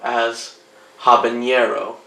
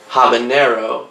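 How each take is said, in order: First: The middle consonant is an ny sound. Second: The middle consonant is a plain n sound.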